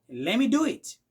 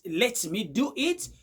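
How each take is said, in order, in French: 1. Let me se fond en un seul mot réduit. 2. Let et me sont prononcés en entier et séparément. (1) "vous allez écouter du genre" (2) "Au lieu de dire"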